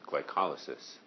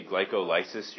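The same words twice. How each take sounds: First: "glycolysis" as gly-COL-y-sis, stress on "col" with short reduced vowels after; "glycolysis" said correctly as gly-COL-y-sis. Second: "glycolysis" as gly-co-LY-sis, stress on the "ly" with a long "lie" vowel; "glycolysis" deliberately misstressed as gly-co-LY-sis; wrong stress. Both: Shown as a demonstration. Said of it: "you're just putting the wrong emphasis on the wrong syllable".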